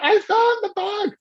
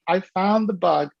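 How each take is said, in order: First: High, excited retold shout; thrilled, high-pitched announcement; eureka cry. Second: Said in the usual way. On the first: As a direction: cry it out like a sudden discovery. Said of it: "I ran down the street".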